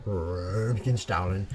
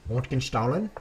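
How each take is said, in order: First: Röntgenstrahlen drawn out slowly with a rising end; second go at Röntgenstrahlen, slow and careful; careful German word. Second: Röntgenstrahlen tried quickly with a German sh; first go at Röntgenstrahlen, said fast; German word. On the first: Streamer retrying the German word Röntgenstrahlen slowly. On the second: Streamer teaching chat the German word Röntgenstrahlen. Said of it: "X-ray in German is pronounced". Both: Shown as a demonstration.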